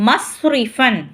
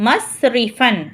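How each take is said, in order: The two takes are said the same way.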